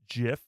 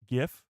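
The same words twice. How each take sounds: First: The word begins with a J sound. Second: The word begins with a hard G sound. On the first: The speaker calls it wrong. "you literally have to spell it J I F" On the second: The speaker calls it right. "It's literally G I F, so it should be GIF"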